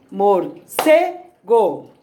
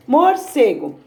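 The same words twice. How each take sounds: First: "morcego" broken slowly into mor, CE, go; syllable by syllable. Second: Said in the usual way. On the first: Shown as a demonstration. Teacher showing the tonic syllable of "morcego", CE stressed in slow pieces. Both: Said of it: "Pode ser falando ou batendo palma".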